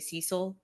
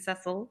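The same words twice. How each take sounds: First: The name is said the American way. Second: The name is said the British way. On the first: This is how people in the US say it. "here in the U S we say Cecil" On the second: This is how the film's characters say it. "They were saying Cecil"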